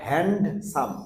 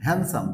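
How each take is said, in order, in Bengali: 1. মাঝখানের 'd' শব্দটি স্পষ্ট উচ্চারিত হয়। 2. মাঝখানের 'd' শব্দটি বাদ পড়ে যায়। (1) "আমরা হ্যান্ডসাম এরকম বলছি না" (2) "ডি সাইলেন্ট হচ্ছে"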